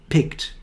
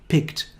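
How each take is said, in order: No difference in how they are said.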